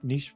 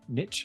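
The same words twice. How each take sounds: First: The word is said in a non-American way. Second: The word is said in an American way.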